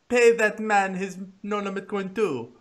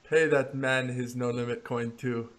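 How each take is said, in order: First: It is said imitating Teddy KGB's voice. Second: It is said in his normal voice.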